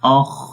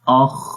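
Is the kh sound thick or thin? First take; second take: thick; thick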